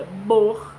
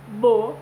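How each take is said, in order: First: "bor" with throaty R; pronouncing bor. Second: "bo" without R; pronouncing bo. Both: Shown as a demonstration. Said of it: "o primeiro, ele tem um R".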